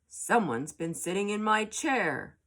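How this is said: It is said in a big, deep voice. Father Bear is speaking. "in a great big voice"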